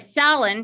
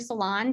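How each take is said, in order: First: The name rhymes with Fallon. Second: The name does not rhyme with Fallon. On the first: The speaker calls it right. "She told me it's like Fallon" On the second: The speaker calls it wrong. "I'm sorry"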